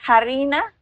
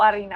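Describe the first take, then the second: First: The h at the start is pronounced. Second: The h at the start is silent. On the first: "leer H como no muda" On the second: "sin H"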